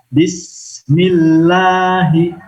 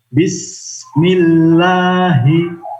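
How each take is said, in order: First: The s sound is held with flowing hiss. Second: The same.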